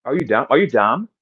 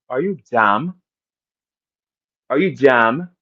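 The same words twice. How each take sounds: First: Said in the usual way. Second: Imitation New York accent. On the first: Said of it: "How you say it in New York". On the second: Shown as a demonstration. Asking Holly how New Yorkers say it, mock New York accent. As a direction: put on a New Yorker's accent, rising at the end. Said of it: "in New York nigga's voice".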